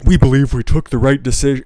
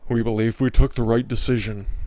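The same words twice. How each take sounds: First: It is said with lots of emotion. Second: It is said with little emotion.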